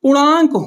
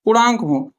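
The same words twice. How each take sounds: First: पूर्णांक said higher and louder, stressed; emphatic answer. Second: Said in the usual way. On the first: Shown as a demonstration. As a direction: hit पूर्णांक firmly as the answer. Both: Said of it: "क्या हो?".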